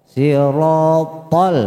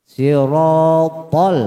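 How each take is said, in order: Both takes have the same delivery.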